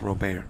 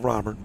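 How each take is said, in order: First: The name has a Louisiana French-style pronunciation. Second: The name has a plain English pronunciation. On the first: "using Louisiana influences and variations" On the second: "my name is no longer Robert"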